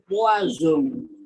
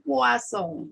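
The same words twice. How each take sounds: First: The middle consonant is a buzzing z sound. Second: The middle consonant is a hissing s sound. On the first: It means poison. "seolah-olah dibaca diganti dengan huruf Z" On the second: It means fish. "kalau S-nya dua itu dibaca bagaikan S satu"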